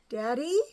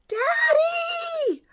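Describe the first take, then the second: First: It is called softly and hesitantly. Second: It is wailed in terror.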